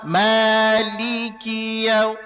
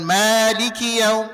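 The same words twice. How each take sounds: First: Each short vowel gets its full beat. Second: The short vowels are clipped and rushed. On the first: The speaker calls it right. "tapi tetap Maliki yaum, ketukannya Maliki yaum" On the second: The speaker calls it wrong. "jangan Maliki yaum, Maliki yaum, nggak boleh"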